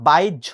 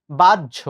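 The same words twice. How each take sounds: First: বাইজ্য with a y glide after the a; wrong pronunciation. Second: বাহ্য said as bajjho, doubled j; correct pronunciation. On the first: Teacher contrasts wrong বাইজ্য with right. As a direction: say বাইজ্য as the error. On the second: Teacher contrasts right বাহ্য with wrong form. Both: Shown as a demonstration. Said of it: "not বাইজ্য".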